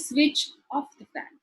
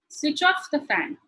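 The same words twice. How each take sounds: First: The stress falls on the word switch. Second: The stress falls on the word off. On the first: The speaker calls it wrong. "You don't say" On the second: The speaker calls it right. "You, you stress on the off"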